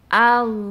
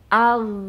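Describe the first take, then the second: No difference in how they are said.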